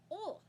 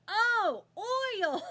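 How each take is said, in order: First: "Oil" said as "ol", pitched high; Southern pronunciation. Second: Loud, high mock realization, "oil" with a full "oy"; Californian's realization. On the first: Retold or imitated. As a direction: drop the glide in "Oil", Southern-style "ol". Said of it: "He is Southern". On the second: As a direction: shout "oil" as "oy-ul", as if finally getting it. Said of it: "Californian's like".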